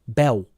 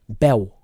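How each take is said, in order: Both takes have the same delivery.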